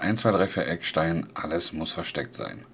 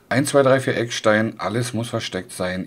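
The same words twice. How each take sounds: First: Heavy noise gating and processing at full strength. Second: Moderate noise gating with milder compression and limiting. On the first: "Wir machen jetzt mal das Noise Gate auf 40%. Alles andere ist auch auf volle Pulle" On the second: "Kompressor auf minus 30. Limiter ... minus 15. Neues machen wir auf 25"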